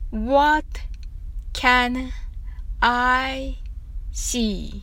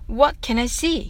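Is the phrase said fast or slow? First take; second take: slow; fast. First: The phrase is said at a slow pace. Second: The phrase is said at a fast pace. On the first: "はじめはゆっくりです。" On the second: "次は早く。"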